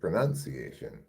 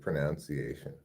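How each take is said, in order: First: The second syllable sounds like 'nun'. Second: The second syllable sounds like 'noun'. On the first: The speaker calls it right. "but it's pronunciation" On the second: The speaker calls it wrong. "when I hear people say pronunciation. What a terrible word to mispronounce"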